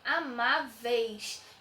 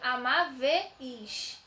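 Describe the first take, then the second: First: The final vowels are joined in one syllable. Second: The final vowels are split into separate syllables. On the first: The speaker calls it right. "Eu falei amáveis. ... tudo junto" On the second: The speaker calls it wrong. "eu não falei amáveis"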